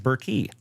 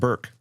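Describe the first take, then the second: First: The name ends with an extra vowel sound. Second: The name ends on the k sound. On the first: "they actually pronounce the E on the end of their last name" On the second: "I assume yours is pronounced Burke"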